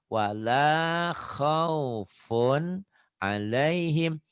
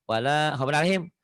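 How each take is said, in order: First: The n of khaufun is held until finished. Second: The n of khaufun is rushed into alaihim. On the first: The speaker calls it right. "funnya sampai selesai lidahnya bers "n" beres" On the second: The speaker calls it wrong. "punnya belum selesai sudah ke "'alaihim""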